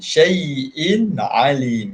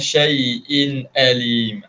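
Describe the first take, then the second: First: The second word begins with a throaty ain sound. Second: The second word begins with a plain glottal stop. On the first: The speaker calls it right. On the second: The speaker calls it wrong.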